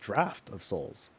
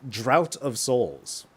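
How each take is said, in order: First: The first word ends with an F sound. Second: The first word rhymes with out, without F. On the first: The speaker calls it right. "no, it's Draft of Souls" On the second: The speaker calls it wrong. "which is how I've read it for the longest time"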